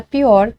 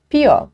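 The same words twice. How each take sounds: First: Said in the usual way. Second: "pior" dito sem o R final, como "pió"; pronúncia coloquial. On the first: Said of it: "Para pior". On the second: Shown as a demonstration. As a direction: corte o R de "pior", terminando em Ó. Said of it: "Vício da fala". ("pior" na fala popular, soando "pió")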